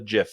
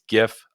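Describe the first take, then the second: First: The word starts with a soft j sound. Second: The word starts with a hard g sound. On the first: The speaker calls it wrong. "All you soft G GIF people out there" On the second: The speaker calls it right. "I pronounce it with a hard G"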